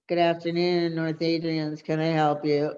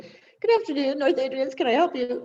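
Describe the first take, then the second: First: It sounds flat and dull. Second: It sounds upbeat and bubbly.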